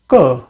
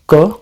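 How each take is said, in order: First: The syllable is said with a falling pitch. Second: The syllable is said with a level pitch. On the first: "a normal K with falling tone" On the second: "normal K"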